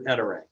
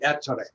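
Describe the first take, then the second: First: The name is said with an English accent. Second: The name is said with an Italian accent.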